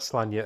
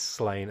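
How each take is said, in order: First: The name sounds like 'Slanya'. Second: The name sounds like the word 'slain'. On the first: This is the traditional pronunciation of the name. "It's not Slanya, as some people have said. Yes, that is the correct pronunciation" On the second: This is how the name's creator says it. "Pat Mills said it's slain, as in he's slain a lot of people"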